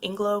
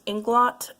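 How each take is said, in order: First: The final t is dropped, French style. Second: The final t is clearly sounded. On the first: "my French brain has had me pronouncing it Inglo" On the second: "I think this is pronounced Inglot"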